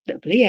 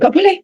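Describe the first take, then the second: First: It is said lower and gently. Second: It is said high-pitched and sharp. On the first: The refusal is loving and comes with a reason. The speaker calls it right. "dengan penjelasan" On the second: The refusal is flat, with no reason given. The speaker calls it wrong. "dengan intonasi satu oktav di atas"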